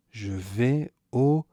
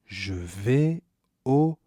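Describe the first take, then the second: No difference in how they are said.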